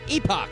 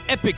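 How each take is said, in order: First: It is said the British way, like epoch. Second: It is said the American way, like epic.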